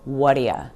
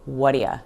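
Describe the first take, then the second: First: The last word is reduced to 'ya'. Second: The same.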